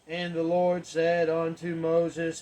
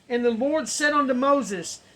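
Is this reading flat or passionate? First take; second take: flat; passionate. First: It is read flatly, without feeling. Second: It is read with passion and conviction. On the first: The text seems to carry no depth or meaning. The speaker calls it wrong. "If we read it like, ... we don't get any depth in that" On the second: The text feels as if it is really happening. The speaker calls it right. "if you read it with passion, if you read it with conviction"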